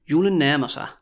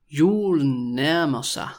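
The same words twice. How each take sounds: First: Said in the usual way. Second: Stretched-out, careful Julen nærmer sig; slow demonstration. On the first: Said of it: "when you also say it quickly". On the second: Shown as a demonstration. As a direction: say it slowly for a learner to repeat. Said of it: "when I say it really slowly".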